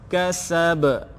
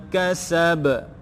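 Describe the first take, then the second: The two takes are said the same way.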